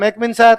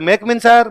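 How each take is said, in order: First: The words are rushed and run together. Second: The same.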